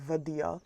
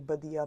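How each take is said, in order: First: The word begins with a V sound. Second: The word begins with a B sound. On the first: This is how people from some other areas say it. "some people would say Vadia" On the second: This is how the speaker's own area says it. "I would say Badia"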